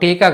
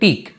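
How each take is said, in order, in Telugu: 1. ఈ పదం చివర పూర్తి అచ్చుతో ముగుస్తుంది. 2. ఈ పదం చివర పొల్లు హల్లుతో ముగుస్తుంది. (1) "టీకా కాదు" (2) "ఇది టీక్"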